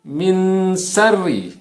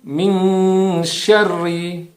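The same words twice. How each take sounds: First: The consonant sounds like a plain s. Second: The consonant sounds like sh. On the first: The speaker calls it wrong. "seolah-olah seperti huruf sin" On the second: The speaker calls it right. "Tapi min syarri"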